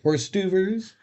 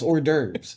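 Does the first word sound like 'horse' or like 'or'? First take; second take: horse; or. First: The first part is said like 'horse'. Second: The first part is said like 'or'. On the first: The speaker calls it wrong. "He's just saying it wrong" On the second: The speaker calls it right. "It's not. It's hors d'oeuvres"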